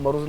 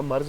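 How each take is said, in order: First: مرض as two syllables, maroz; Hindko pronunciation. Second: مرض as one syllable, marz; Urdu pronunciation. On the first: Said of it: "ان کو والے مرض کہتے ہیں". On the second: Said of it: "مرض نہیں ہے اردو والا". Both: Shown as a demonstration.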